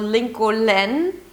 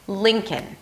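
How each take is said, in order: First: An L sound is heard in the second syllable. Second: No L sound is heard in the second syllable. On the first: The speaker calls it wrong. "It is not Lincoln" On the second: The speaker calls it right. "there is no L, no L whatsoever at the end"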